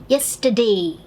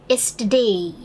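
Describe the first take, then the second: Both takes have the same delivery.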